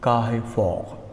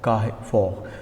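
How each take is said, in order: First: The R sounds are pronounced French-style. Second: The R sounds are pronounced French-style.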